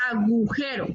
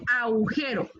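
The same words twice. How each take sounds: First: "agujero" with a clear g; careful "agujero", g sounded; correct agujero. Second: "agujero" as "aujero", no g; "agujero" starting au-; mispronounced agujero. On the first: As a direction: model "agujero" as a-gu-jero. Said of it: "es agujero". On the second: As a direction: show the faulty "agujero" without its g. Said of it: "No es agujero". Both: Shown as a demonstration.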